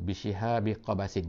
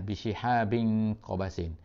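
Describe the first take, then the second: First: The first noun ends without an n sound. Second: The first noun ends with an n sound.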